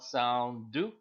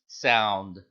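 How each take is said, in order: First: A short u vowel follows the final d. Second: No vowel follows the final d. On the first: The speaker calls it wrong. "It's not sound do" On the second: The speaker calls it right. "It's just sound. The D just becomes a silent letter D"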